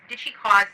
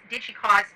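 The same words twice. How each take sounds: The two takes are said the same way.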